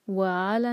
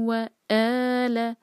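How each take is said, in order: First: The vowel after wa starts softly with breath. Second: The vowel after wa starts with a sharp catch. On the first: The speaker calls it wrong. "नहीं कहना इसको" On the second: The speaker calls it right. "Cut off sound होता है हमजा का"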